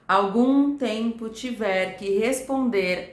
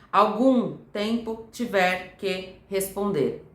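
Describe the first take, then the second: First: The words flow together without breaks. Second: The words are separated by small breaks. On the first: The speaker calls it right. "as palavras elas estão ligadas" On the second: The speaker calls it wrong. "e não"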